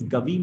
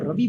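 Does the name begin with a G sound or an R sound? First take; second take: G sound; R sound. First: The name begins with a G sound. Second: The name begins with an R sound. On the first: "went as Gavi" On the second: "My father Ravi"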